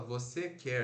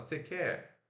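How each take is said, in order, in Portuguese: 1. Todas as sílabas são ditas por completo. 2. Parte da primeira palavra é omitida. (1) "A gente não fala" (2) "a gente fala"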